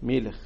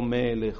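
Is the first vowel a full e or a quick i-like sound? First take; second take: quick i; full e. First: The first vowel is a quick, i-like sound. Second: The first vowel is a full e sound. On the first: "ככה הוא מדבר, כאילו זה קצת נוטה לחיריק, וזה בחטיפה" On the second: "ולא מלך, הוא לא יגיד ככה"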